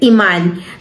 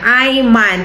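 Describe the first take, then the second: First: It is read the Spanish way, starting with 'ee'. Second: It is read the Filipino way, starting with 'eye'. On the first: "sa Espanyol pinopronounce siya as Iman with accent" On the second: "ang basa sa ano niya sa spelling niya Ayman"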